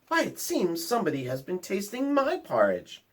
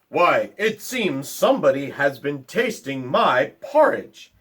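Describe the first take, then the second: First: It is said in a medium-sized voice. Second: It is said in a big, deep voice.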